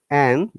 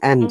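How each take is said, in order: First: The word ends without a d sound. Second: The word ends with a clear d sound. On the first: "you're pronouncing it more comfortably" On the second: "rather than and"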